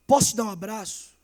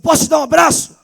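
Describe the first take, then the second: First: Said in the usual way. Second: Higher and louder, pressing the question; louder insistent offer. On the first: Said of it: "falou assim". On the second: Retold or imitated. Girl repeating her offer of a hug to the boy, louder and higher. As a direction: ask again, lifting the voice to reach him. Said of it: "A menina falou".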